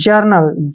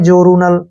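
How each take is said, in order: First: The first vowel is a short 'ur' sound. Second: The first vowel is 'or' followed by 'oo'. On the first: The speaker calls it right. "जर्नल क्या पढ़ेंगे इसको?" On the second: The speaker calls it wrong. "इसको कई बार गलती से पढ़ते हैं जोरूनल, नहीं गलत है"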